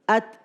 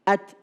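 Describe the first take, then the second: First: The t is released with a short light breath. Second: The t is released with a short light breath.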